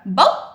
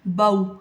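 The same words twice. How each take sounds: First: The syllable ends with an abrupt jerk. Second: The syllable is said smoothly, neither clipped nor lengthened. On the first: The speaker calls it wrong. "हमने झटका देके नहीं पढ़ा" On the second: The speaker calls it right. "हमने क्या पढ़ा है?"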